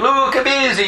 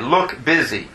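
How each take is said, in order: First: It is said in an Italian accent. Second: It is said in a plain accent.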